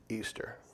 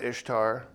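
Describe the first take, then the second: First: The first vowel is long, like 'ee'. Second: The first vowel is short, like 'ish'. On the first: This is claimed to be the original pronunciation. The speaker calls it right. "you know how Ishtar is actually pronounced?" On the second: This is the common modern pronunciation. The speaker calls it wrong. "we pronounce it Ishtar"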